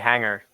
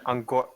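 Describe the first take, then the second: First: The name begins with an H sound. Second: The name begins with no H sound. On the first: The speaker calls it wrong. "don't say hanger, because that's weird" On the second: The speaker calls it right. "Just say the O"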